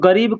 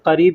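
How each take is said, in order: First: The word begins with a voiced g sound. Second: The word begins with a deep q sound. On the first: This is how people commonly say it. "लोग गरीब-गरीब कहते हैं" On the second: This matches how the word is written. "बड़ा काफ से है करीब"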